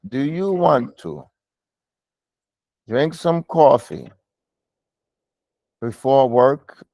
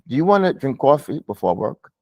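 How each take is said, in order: First: It is read slowly and haltingly. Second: It is read smoothly and fluently. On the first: The speaker calls it wrong. "that's a little too slow" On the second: The speaker calls it right. "It's a little more fluent. It's a little bit more smooth"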